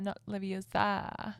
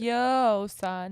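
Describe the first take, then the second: First: "Leviosa" with a long "sa", slow and softer; correcting Leviosa. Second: Leviosa with the stress on "o", drawn out; movie Hermione line. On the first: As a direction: say "Leviosa" as le-vi-oh-SAR. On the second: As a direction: say "Leviosa" as le-vi-OH-sa, slowly. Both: Retold or imitated.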